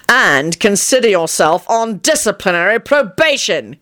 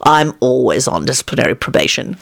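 First: Angry, emphatic sentencing; snarling. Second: Low-pitched, easy reassurance; consoling. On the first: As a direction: snarl it as a final punishment. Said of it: "he snarled". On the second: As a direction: console him gently, voice dropped low. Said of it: "told him in a consoling tone". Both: A narrator's reading.

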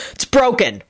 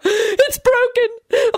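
First: Brisk, certain pronouncement; matter-of-fact, final verdict; authoritative announcement. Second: Very high, drawn-out wail; wailing scream. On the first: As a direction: state the diagnosis with authority. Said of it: "she announced authoritatively". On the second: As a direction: cry out that it hurts, stretched and high. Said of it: "Lady Fanshawe screamed from the floor". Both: A narrator's reading.

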